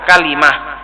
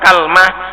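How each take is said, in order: First: It has an a vowel, then an i vowel. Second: It opens with an a vowel, no middle vowel. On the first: This is the form used by the people of Hijaz. "bi fathil kaf wa kasril lam" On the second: This is the form used by the Tamim tribe. "dengan memfathah kaf dan lamnya disukun"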